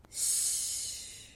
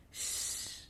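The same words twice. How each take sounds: First: "sh" as a long, sharper soft hiss; snake-like shch. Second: "sh" as a hard hushing wind sound. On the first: Teacher contrasting two Russian letters for learners, snake-like hiss. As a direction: hiss "sh" like a snake about to attack. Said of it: "sound of a snake that wants to attack you". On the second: Teacher contrasting two Russian letters for learners, wind-like sh. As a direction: blow "sh" like wind. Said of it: "sound of wind". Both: Shown as a demonstration.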